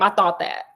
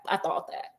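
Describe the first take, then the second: First: Said in the usual way. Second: The words repeated in a whisper. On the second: Retold or imitated. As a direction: let it fall to a whisper. Holmes repeats it, now whispered.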